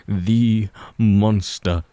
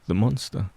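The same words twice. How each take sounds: First: The monster drawn out slowly, louder; slow ominous emphasis. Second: Said in the usual way. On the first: A narrator's reading. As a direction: drag each word out darkly. Repeated, slowed and heavy.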